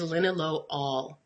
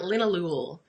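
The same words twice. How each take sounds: First: The ending sounds like 'all' as in ball. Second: The ending sounds like 'ool' as in pool. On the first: The speaker calls it right. "every alcohol sounds like all at the end" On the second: The speaker calls it wrong. "it's not linalool"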